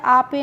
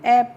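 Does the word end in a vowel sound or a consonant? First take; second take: vowel; consonant. First: It is said with a long 'aa' and an extra final vowel. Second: It is said with an 'ay' vowel, ending in 'p'. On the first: The speaker calls it wrong. "आपे नहीं पढ़ते हैं" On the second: The speaker calls it right. "इसको हम ऐप पढ़ते हैं"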